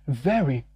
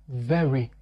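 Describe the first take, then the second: The two takes are said the same way.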